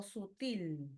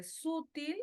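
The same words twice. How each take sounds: First: Slow "sutil" stressed on the last syllable TIL; second option, "sutil" with stress at the end. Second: Slow "sutil" stressed on the first syllable SU; first option, "sutil" with stress up front. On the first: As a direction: say "sutil" as su-TÍL. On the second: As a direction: say "sutil" as SÚ-til. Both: Shown as a demonstration.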